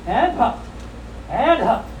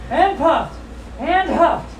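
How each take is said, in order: Both takes have the same delivery.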